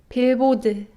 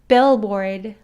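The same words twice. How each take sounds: First: The b barely buzzes and pops open. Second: The b buzzes strongly in the throat. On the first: "Korean 비읍 sound" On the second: "English b sound"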